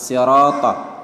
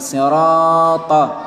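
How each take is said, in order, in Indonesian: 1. Vokal panjang ditahan hanya dua harakat. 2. Vokal panjang ditahan jauh lebih dari dua harakat. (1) "panjangnya itu cuma dua harokat" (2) "bukan sirata. Kalau dibaca seperti itu salah"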